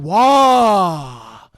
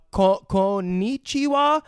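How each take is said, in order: First: "konnichiwa" very slow, syllables stretched, loud; exaggerated, drawn-out teacher's "konnichiwa"; teacher modelling pronunciation. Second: Slow, tentative "konnichiwa", restarting the first syllable; hesitant learner's attempt. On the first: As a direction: model "konnichiwa" with a long, swooping last syllable. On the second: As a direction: stumble at the start of "konnichiwa". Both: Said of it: "helps her pronunciate it".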